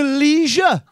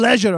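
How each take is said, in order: First: "leisure" with a long ee, LEE-zher; stretched American-style "leisure", first syllable like "lee"; American pronunciation. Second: "leisure" with a short e, LEH-zher; "leisure" said as lezh-uh, short first vowel; British pronunciation. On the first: Acted. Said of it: "I'm trying to do this American thing". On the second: Retold or imitated. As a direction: correct it to British "leisure", rhyming with pleasure. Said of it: "Don't you mean leisure?".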